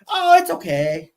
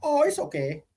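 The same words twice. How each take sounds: First: Put-on very high, sweet Japanese accent. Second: Put-on Japanese accent. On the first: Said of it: "your Japanese accent was pretty funny". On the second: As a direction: repeat it in a high Japanese accent. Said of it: "What she said?".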